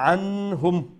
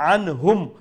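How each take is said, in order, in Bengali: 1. নুন ধ্বনিটি নাসিকা ধ্বনির মধ্যে লুকিয়ে থাকে। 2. নুন ধ্বনিটি স্পষ্ট ও আলাদাভাবে উচ্চারিত হয়। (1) "বলবো না" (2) "নুন সাকিনকে আমরা স্পষ্ট করে, যেটা ইজহার বলা হয়"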